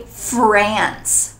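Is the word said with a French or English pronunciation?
English. The word is said with an English pronunciation. "But in English, we need to say France"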